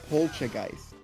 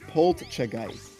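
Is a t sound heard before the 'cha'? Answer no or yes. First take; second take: no; yes. First: No t sound comes before the 'cha'. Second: A t sound comes before the 'cha'. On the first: The speaker calls it wrong. "normally you would say it Poltergeist" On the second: The speaker calls it right. "but it's Poltergeist. There's a t sound"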